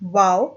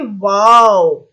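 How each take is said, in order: First: It is said flatly, without feeling. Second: It is said expressively, with strong feeling.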